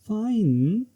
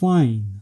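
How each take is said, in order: First: It sounds doubtful and hesitant. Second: It sounds angry and sarcastic. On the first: It shows hesitation. "Intonation doubt और hesitation को represent करता है।" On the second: It shows strong anger. "ये strong anger और sarcasm को represent करता है।"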